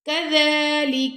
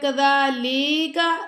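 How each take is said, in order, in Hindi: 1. कोई स्वर लंबा नहीं खींचा जाता; सभी छोटे हैं। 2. l के बाद वाला बीच का स्वर लंबा खींचा जाता है।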